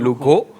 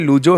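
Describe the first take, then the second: First: The middle consonant is a 'kh' sound. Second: The middle consonant is a 'j' sound. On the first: "Spanish में ज को ख प्रोनाउंस किया जाता है" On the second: "पढ़ते लूजो हैं जी"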